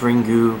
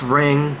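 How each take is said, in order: First: Two syllables, starting with r, ending in u. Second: One syllable, starting with r, no final vowel. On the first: This is how the Japanese say it. "because it's Japanese pronunciation" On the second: This is the English title. "It's Ring"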